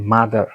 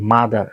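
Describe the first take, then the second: No difference in how they are said.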